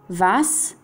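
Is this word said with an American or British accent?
British. It is said with a British English accent. "inglese britannico"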